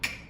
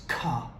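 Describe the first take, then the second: First: The k sound is said alone, without a vowel. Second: The k sound is followed by a vowel. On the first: The speaker calls it right. "when we want it to be k" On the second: The speaker calls it wrong. "this is often pronounced as ka"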